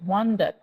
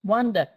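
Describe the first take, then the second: No difference in how they are said.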